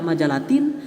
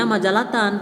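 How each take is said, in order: First: The word ends with an i vowel. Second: The word ends with an a vowel. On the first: The speaker calls it wrong. "tidak majalatin" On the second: The speaker calls it right. "Dibacanya majalatan"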